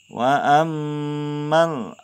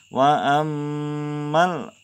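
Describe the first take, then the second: Both takes have the same delivery.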